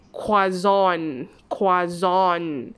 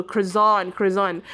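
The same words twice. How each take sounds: First: Croissant the French way, "kwazon"; correct French pronunciation. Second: Croissant said as "krezon", hard r and z; croissant the Malaysian way, "krezon"; common wrong pronunciation. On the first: Teacher models the correct croissant, "kwazon". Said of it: "This is the correct pronunciation". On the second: Teacher shows the common way, croissant as "krezon". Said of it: "Tetapi pronunciation-nya ialah sebenarnya". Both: Shown as a demonstration.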